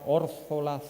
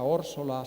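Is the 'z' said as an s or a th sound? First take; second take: th; s. First: The z is said as a th sound. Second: The z is said as an s sound. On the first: It follows the written spelling. The speaker calls it wrong. "como los acabo de pronunciar, con Z" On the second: It follows the local spoken form. The speaker calls it right. "la pronunciación canaria"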